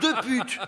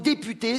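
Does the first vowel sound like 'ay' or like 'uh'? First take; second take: uh; ay. First: The first vowel is a weak 'uh' sound. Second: The first vowel is a clear 'ay' sound. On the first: "ça se prononce de pute" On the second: "j'ai enlevé l'accent sur le mot député"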